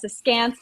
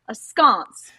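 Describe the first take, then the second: First: The second syllable has the vowel of 'dance'. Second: The second syllable has the vowel of 'sconce'. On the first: The speaker calls it right. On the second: The speaker calls it wrong.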